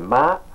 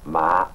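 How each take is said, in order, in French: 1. Il porte le ton qui donne le sens joue. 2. Il porte le ton qui donne le sens jeunes plants de riz. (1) "c'est maman ou la joue" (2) "les jeunes plants de riz"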